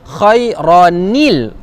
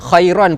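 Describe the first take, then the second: First: An added -il vowel links the two words. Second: It ends on -an, with no linking vowel. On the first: The speaker calls it right. "jadi kita baca khairanil" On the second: The speaker calls it wrong. "Khairan pun salah"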